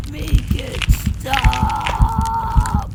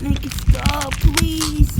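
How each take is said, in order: First: Loud, slow, stretched-out wail on stop; drawn-out scream. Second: Loud, desperate screamed begging; screamed plea. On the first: Kid wails the plea out slowly in agony. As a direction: drag the scream out long. Begging during transformation. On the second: Kid begs loudly for the change to stop. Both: Acted.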